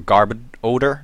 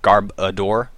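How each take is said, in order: First: The name ends sounding like the word odor. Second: The name ends sounding like the word adore. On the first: The speaker calls it right. "It's pronounced garb odor, like, you know, odor" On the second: The speaker calls it wrong. "not garb adore, like people seem to want to pronounce it"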